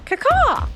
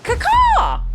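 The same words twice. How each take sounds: First: It is said with little energy. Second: It is said with more enthusiasm.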